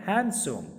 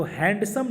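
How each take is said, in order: First: हैंडसम as "hen-sum", with a silent D; हैंडसम without its D; correct handsome. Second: हैंडसम with a clear D, "hand-sum"; the D sounded in हैंडसम; wrong handsome. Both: Shown as a demonstration. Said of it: "हैंडसम नहीं होता है".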